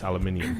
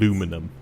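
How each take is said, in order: First: It is pronounced the British way. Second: It is pronounced the American way. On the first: The speaker calls it right. "everybody knows it's" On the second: The speaker calls it wrong. "you Americans say things weird. like"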